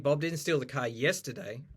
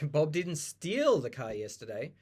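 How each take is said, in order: First: The stress falls on the word yesterday. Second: The stress falls on the word steal. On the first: It happened on another day. "If you put the stress on yesterday" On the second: He did something else with it. "He just borrowed it"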